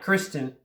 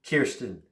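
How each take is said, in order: First: The name starts with the sound 'kris'. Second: The name starts with the sound 'keer'. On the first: The speaker calls it wrong. "not Kristen" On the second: The speaker calls it right. "I said it right"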